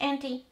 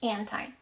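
First: It is said in a British English accent. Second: It is said in an American English accent. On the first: "W British English" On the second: "American English"

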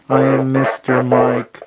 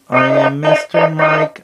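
First: The voice sounds robotic. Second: The voice sounds very high-pitched. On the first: "So this is at the low level. ... I sound like a robot" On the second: "we put it all the way up. ... I sound really high pitched"

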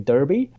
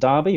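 First: Derby is said with an American pronunciation. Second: Derby is said with a British pronunciation.

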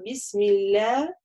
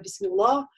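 First: The l sound is light and soft. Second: The l sound is heavy and hard. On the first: The speaker calls it right. "так как перед ляфз-джаляля стоит касра, поэтому бисмилля мы говорим" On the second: The speaker calls it wrong. "мы не делаем ее твердо. Часто некоторые так произносят"

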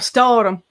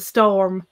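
First: It is pronounced the Irish English way. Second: It is pronounced the standard English way. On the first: "They pronounce English words as if they're Irish words" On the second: "instead of saying film and storm"

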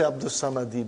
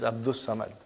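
First: The name ends with an extra i vowel. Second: The name ends on the consonant d. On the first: The speaker calls it wrong. "we don't say Abdus Samadi" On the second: The speaker calls it right. "but it is Abdus Samad"

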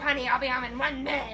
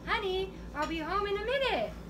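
First: The voice sounds cold and harsh. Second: The voice sounds warm and gentle. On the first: The message is taken as annoyed or negative. The speaker calls it wrong. "you read it like with all this negative vibes" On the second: The message is meant kindly. The speaker calls it right. "I just meant like"

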